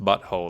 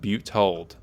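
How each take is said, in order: First: The first part is said as 'butt'. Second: The first part is said as 'butte'. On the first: The speaker calls it wrong. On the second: The speaker calls it right.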